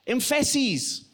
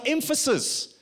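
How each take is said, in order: First: Emphases with the middle syllable stressed, em-FASS-eez; wrong-syllable stress. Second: Said in the usual way. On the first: Shown as a demonstration. Preacher showing how stress changes a word, emphases misstressed on FASS. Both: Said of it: "emphases on the wrong syllable".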